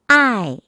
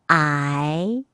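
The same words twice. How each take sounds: First: The pitch falls sharply from high to low. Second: The pitch rises from middle to high.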